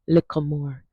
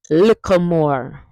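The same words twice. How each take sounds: First: Said in the usual way. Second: "Little more" slow, as "likka more". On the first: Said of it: "You will hear Jamaicans use this one". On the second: Shown as a demonstration. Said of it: "Hear that?".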